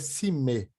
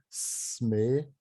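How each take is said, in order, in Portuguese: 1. Uma vogal é colocada entre o s e o m. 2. O s e o m ficam juntos, sem vogal.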